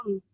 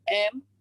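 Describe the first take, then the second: First: M as a short humming "m" sound; letter sound of M. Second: Said in the usual way. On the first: Shown as a demonstration. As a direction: sound out M, not the letter name. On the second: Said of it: "simbol huruf M".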